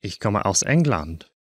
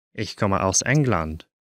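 No difference in how they are said.

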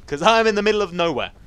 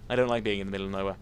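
First: High, loud outburst; exclaimed complaint. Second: Said in the usual way. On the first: Real, not acted. Gamer lost in a cave, loud complaint. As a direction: lift and push the whole phrase. Exclaims, then repeats plainly.

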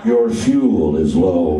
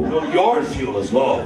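First: Very low, slow butler voice; slow, deep English butler; Alfred the butler. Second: "your" stressed with a rising tune. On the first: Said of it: "he did sound like the butler from Batman". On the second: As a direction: punch "your" as a retort. Arguing back at the car. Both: Acted.

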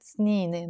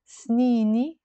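First: سنيني ending in e; Lebanese snine. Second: سنيني with i at the end as sung; sung form سنيني; song-style snini. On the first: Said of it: "in Lebanese we would pronounce it". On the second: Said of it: "يعني my years". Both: Shown as a demonstration.

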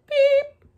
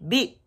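First: Tiny, very high peep; chick's peep. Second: Short beep, slightly high; quick little toot from a toy truck; little truck's beep. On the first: Chick following the hen, piercing high peep. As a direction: squeak it like a baby chick. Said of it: "her chick said". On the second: Little truck answering the animals, short modest beep. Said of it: "Blue said". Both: A narrator's reading.

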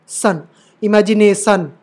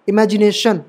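First: इमेजिनेशन ending in a plain s, "-san"; wrong S sound. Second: इमेजिनेशन ending in "shan"; correct SH sound. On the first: Teacher warning against this sound, mispronounced with s. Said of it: "ये वाला सा मत पढ़ देना". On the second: Teacher giving students the right reading, clear sh. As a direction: give इमेजिनेशन a clear sh, not s. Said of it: "शेंटी वाला श". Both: Shown as a demonstration.

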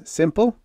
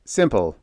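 First: SIMPLE pitched high with rising tone; questioning. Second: Lightly voiced crisp answer, falling tone; sharp Joe College. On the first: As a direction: end SIMPLE on a sharp upward question. Questions Ned after briefing him. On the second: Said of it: "answered in his sharp Joe College voice". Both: A narrator's reading.

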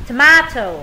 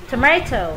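First: "Tomato" as tuh-MAH-toh, louder; long A. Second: "tomato" as tuh-MAY-toh; alternative pronunciation. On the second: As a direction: middle of "tomato" rhymes with "may". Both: Shown as a demonstration. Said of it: "Cái âm này có hai cách đọc".

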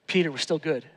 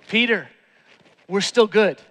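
First: Gentle reassurance. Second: Said in the usual way. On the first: Acted. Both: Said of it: "That's what the look was".

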